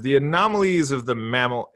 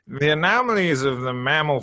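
First: It is read in the speaker's ordinary voice. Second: It is read in a nasal, put-on British accent.

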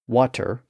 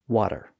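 First: The middle consonant is a clear T sound. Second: The middle consonant is a soft D-like tap. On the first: "the change of the T sound to a D sound in the middle of a word" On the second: "Water becomes water"

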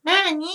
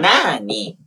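First: It is said in a higher voice. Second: It is said in a lower voice.

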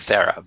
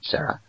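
First: The name begins with a th sound. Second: The name begins with an s sound. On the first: The speaker calls it wrong. "I could say Thera" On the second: The speaker calls it right. "but it's Jaume Coyet Serra"

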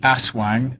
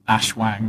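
First: The word is said with a plain s sound. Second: The word is said with a sh sound. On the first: The speaker calls it right. "pronouncing the word correctly" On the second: The speaker calls it wrong. "not ashwang"

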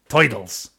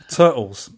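First: It is said in a put-on comic voice. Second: It is said in a plain, normal voice.

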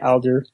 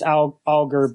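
First: It has a different vowel and a soft G. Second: It has an ah vowel and a hard G. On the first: The speaker calls it wrong. "but I still usually say it Alger" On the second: The speaker calls it right. "So with an ah sound and then a hard G"

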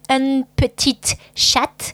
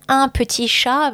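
First: The final consonants are pronounced aloud. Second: The final consonants are left silent. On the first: It sounds like the feminine form. The speaker calls it wrong. "if you say un petit chat, ... I understand female" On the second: It is the masculine form. The speaker calls it right. "instead of un petit chat"

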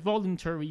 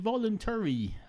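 First: The stress falls on the first syllable. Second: The stress falls on a later syllable. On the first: This is the usual way people say it. "everyone else in society says voluntary" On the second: This is the speaker's own preferred way to say it. "I happen to like... the latter syllables in some words more than other people, and I put stress on those"

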